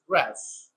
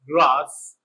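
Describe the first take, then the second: First: It is said with an American accent. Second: It is said with a British accent.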